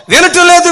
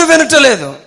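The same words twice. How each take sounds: First: Sudden high shout of despair; shouted complaint. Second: Said in the usual way. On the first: Acted. Preacher echoes the family's complaint, shouting. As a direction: cry it out, higher and louder.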